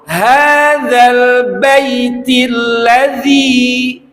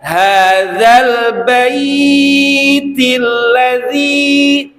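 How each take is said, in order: First: The vowel in bait is kept short. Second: The vowel in bait is drawn out long. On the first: The speaker calls it right. "tapi langsung" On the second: The speaker calls it wrong. "bainya tidak dibaca"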